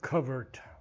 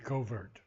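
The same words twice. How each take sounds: First: It is said with a British pronunciation. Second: It is said with an American pronunciation. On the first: "English pronunciation" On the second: "American would be covert"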